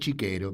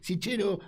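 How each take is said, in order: First: The name is pronounced the Italian way. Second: The name is pronounced the Spanish way. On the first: "en italiano se pronuncia chiquero" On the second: "pero es Sichero"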